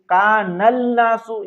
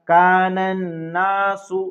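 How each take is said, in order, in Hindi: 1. n से पहले एक l की आवाज़ आती है। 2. सीधे दोहरे n में मिल जाता है, कोई l नहीं। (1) "ये पढ़ना गलत होगा" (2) "तो पढ़ेंगे कानन्नासु"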